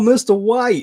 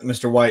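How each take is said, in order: First: It is said in an imitated character voice. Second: It is said in the speaker's ordinary voice. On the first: "I'm like, yo, mister White. I just really want to say it like that" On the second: "it's really hard to not say it like Jesse Pinkman"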